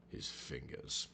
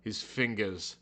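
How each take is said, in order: First: Breathy whispered echo, much softer. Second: Said in the usual way. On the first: Shown as a demonstration. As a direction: hush it like a secret. Dramatic repeat of a phrase.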